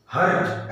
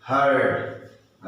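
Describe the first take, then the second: First: हर्ट with a rolled r and a rising tune; हर्ट said as the wrong example, r rolled. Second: हर्ट stretched very slowly with a falling tune; हर्ट, slow and falling, the correct take; right way, slow. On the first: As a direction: roll the r in हर्ट and lift the end. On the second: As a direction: draw हर्ट out long and let it fall. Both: Shown as a demonstration. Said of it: "ऐसे नहीं".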